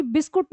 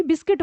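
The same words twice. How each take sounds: First: बिस्कुट ending in -kut, quoted as the mistake; the Indianised बिस्कुट, bis-kut; rejected pronunciation. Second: बिस्किट ending in -kit, as the correction; the English form बिस्किट, bis-kit; corrected pronunciation. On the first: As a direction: say बिस्कुट with "u" in the last syllable. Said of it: "अगर आप बिस्कुट बोलोगे". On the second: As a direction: say बिस्किट with a short "i" in the last syllable. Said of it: "बिस्किट होता है". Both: Shown as a demonstration.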